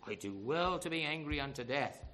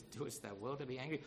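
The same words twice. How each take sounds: First: Mildly acted stubborn retort; still angry. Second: Lower, softer questioning of an angry man; the Lord questioning. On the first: Jonah answers the Lord's question, mildly angry retort. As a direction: answer back with a touch of anger. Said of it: "Because he's still angry". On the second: Retold or imitated. The Lord questions sulking Jonah, quiet question. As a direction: ask quietly, rising at the end. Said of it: "the Lord says".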